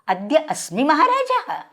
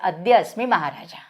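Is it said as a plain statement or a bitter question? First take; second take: bitter question; plain statement. First: It is said as a bitter, incredulous question. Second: It is said as a flat, plain statement.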